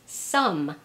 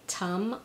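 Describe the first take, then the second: First: The word begins with an s sound. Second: The word begins with a t sound. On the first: "or sometimes as an S" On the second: "or as a T"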